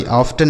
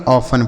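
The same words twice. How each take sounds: First: "ऑफ्टन" with an audible T; T pronounced. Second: "ऑफन" with no T sound; silent T. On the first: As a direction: sound the T in the middle of "ऑफ्टन". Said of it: "ऑफ्टन नहीं पढ़ेंगे". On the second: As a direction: go straight from F to N in "ऑफन", dropping the T. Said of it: "यह जो टी है यह silent है". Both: Shown as a demonstration.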